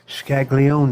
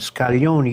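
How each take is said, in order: First: The name is said with an Americanized pronunciation. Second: The name is said with an Italian pronunciation. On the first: This is how others commonly say it. "they would pronounce it" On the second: This is the original way of saying it. "you pronounce it the Italian way"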